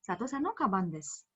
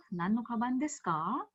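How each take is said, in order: First: "Sato-san no kaban desu." kept level, then falling on "desu"; level answer tune. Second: "Nan no kaban desu ka?" with the pitch rising on "desu ka" at the end; rising question tune. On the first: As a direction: let "desu" settle down flat as a plain statement. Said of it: "whereas this goes straight". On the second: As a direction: lift "ka" up high like a real question. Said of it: "So, it goes in the high pitch". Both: Shown as a demonstration.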